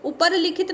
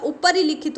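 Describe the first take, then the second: First: ऊपर लिखित with no 'i' between the words; wrong pronunciation. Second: ऊपर ही लिखित run together as 'upari-likhit'; correct pronunciation. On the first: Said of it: "नहीं होता". (ऊपर लिखित को बीच में 'इ' के बिना बोलें) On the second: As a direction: add a short i after the r in ऊपर ही लिखित. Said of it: "रा में छोटी की मात्रा". (ऊपर ही लिखित को 'उपरिलिखित' बोलें) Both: Shown as a demonstration.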